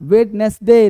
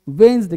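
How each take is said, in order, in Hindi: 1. हर अक्षर बोला जाता है, बीच के d समेत। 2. बीच का d छोड़ दिया जाता है, और यह wenzday जैसा सुनाई देता है। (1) "वेडनेसडे नहीं बोलते" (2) "अब बोलना है वेंसडे"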